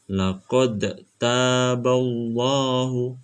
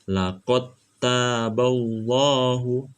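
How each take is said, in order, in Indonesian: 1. Bunyi d dipantulkan terpisah sebelum t. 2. Bunyi d langsung digabung ke t. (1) "Jadi tidak dibaca" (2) "Saya contohkan cara bacanya"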